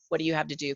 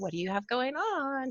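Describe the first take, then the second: First: It is said quickly in a normal, hurried voice. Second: It is said in a silly, funny put-on voice.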